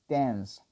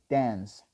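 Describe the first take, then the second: The two takes are said the same way.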